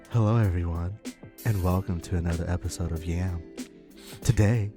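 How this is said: It is said in a sultry, put-on voice.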